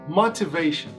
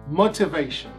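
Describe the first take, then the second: First: The word is said in a British accent. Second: The same.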